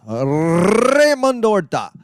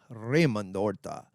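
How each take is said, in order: First: Hammed-up Spanish accent, higher, louder and drawn out very slow; horrible Mexican accent. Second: Said in the usual way. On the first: Shown as a demonstration. Hyping up his friend Raymond Horta in an over-the-top Mexican accent. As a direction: roll out the name like a booming Mexican announcer. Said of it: "I do a horrible Mexican accent". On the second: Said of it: "I do a horrible".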